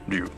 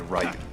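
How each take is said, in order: First: The name is said with Japanese sounds. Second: The name is said with English sounds. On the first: The speaker calls it right. "I don't think anybody would think of pronouncing R Y U as do" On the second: The speaker calls it wrong. "They would always say Ryu"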